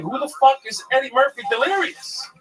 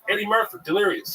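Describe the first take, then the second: First: Outraged confusion. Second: Higher, offhand naming of the classic; matter-of-fact comics. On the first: Young comic who never heard of Eddie Murphy, bewildered. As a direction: squeal it in total disbelief. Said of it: "I was like". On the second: Other comics naming Eddie Murphy's special, offhand. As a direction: toss it off like everyone knows it. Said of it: "They're like". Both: Retold or imitated.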